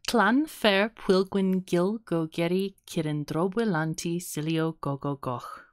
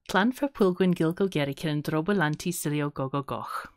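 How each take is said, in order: First: The name is said slowly, piece by piece. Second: The name is said at a medium pace. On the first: "That's the slowish version" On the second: "That was kind of the medium version"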